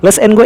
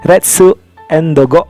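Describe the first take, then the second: First: It is said with plain English sounds. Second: It is said with Japanese sounds, Retsu.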